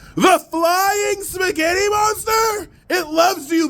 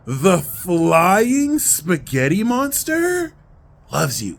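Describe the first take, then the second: First: It is said boldly and forcefully, from the chest. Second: It is said softly, with quiet heartfelt feeling. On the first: The speaker proclaims the idea with courage. "I'm saying it with my chest. There's courage" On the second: The speaker personally feels the idea is true. "Then we start to feel that truth"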